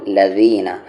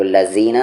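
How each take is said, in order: First: लज़ीना with ज़ as th in this; tongue on teeth for ज़ in लज़ीना; correct zaal sound. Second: लज़ीना with a buzzing plain z; wrong z sound. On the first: Teacher pointing out zaal, voiced th in लज़ीना. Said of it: "लदीना में भी दाल है". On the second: Teacher showing what not to say, plain z in लज़ीना. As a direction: say लज़ीना with z instead of voiced th. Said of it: "नहीं". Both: Shown as a demonstration.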